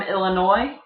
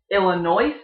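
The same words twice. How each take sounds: First: Said in the usual way. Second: "Illinois" with the final S sounded, "ill-uh-NOISE"; mispronounced Illinois. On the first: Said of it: "people from Illinois". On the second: Shown as a demonstration. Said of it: "if you call it".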